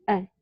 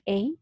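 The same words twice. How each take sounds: First: "A" as a short schwa, uh; weak article. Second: "A" as the letter name, ay; strong article. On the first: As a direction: model "A" weak, like uh. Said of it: "que se llama schwa". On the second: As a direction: model "A" with a glide, ay. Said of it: "can be pronounced as A". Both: Shown as a demonstration.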